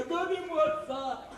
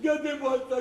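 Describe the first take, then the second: First: Higher, slow teasing "gardez-moi ça"; drawn-out teasing repeat of "gardez-moi ça", higher; teasing drawl. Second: Said in the usual way. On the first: Acted. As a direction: stretch "gardez-moi ça" out slowly, mocking.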